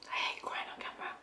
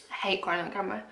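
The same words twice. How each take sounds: First: Fast, tear-choked whisper; whispered through tears, softer; crying whisper. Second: Said in the usual way. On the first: Real, not acted. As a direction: rush it out in a breathless cry.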